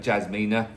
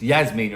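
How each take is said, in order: First: The name begins with a J sound. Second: The name begins with a Y sound. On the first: The speaker calls it wrong. "I got told off for calling her Jasmina" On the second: The speaker calls it right. "It's Yasmina apparently. Silent J turns into a Y"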